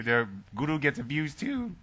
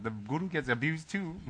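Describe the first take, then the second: First: "their guru gets abused too" with a cracking, emotional voice; choked up, half joking. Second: "The guru gets abused too" pitched higher and cracking on "too"; mock-tearful repeat for laughs; hammed-up cracking voice. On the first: Real, not acted. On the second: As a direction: overplay the emotional crack. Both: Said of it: "my voice is cracking 'cause I'm getting emotional".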